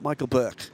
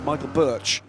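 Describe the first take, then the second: First: The surname ends with a 'k' sound. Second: The surname ends with a 'ch' sound. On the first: The speaker calls it wrong. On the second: The speaker calls it right. "we're going to be careful with this"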